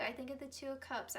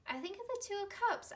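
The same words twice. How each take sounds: First: Said in the usual way. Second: Higher and faster, bursting with enthusiasm; excited emphasis. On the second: Real, not acted. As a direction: blurt it out eagerly. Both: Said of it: "I, I do".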